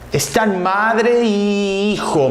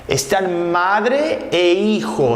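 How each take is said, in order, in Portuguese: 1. A conjunção soa como 'i', se juntando a 'hijo'. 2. A conjunção soa como 'e', diferente de 'hijo'. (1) "Mais uma vez um choque de pronúncia" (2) "novamente desviou"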